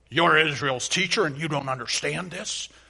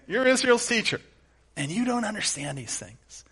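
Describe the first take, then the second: First: It is said in a stern, scolding tone. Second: It is said in an amused, laughing tone.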